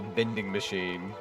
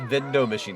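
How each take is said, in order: First: The first word is said as 'vending'. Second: The first word is said as 'vindo'. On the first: "not the vending machine" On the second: "It is called the Vindo machine"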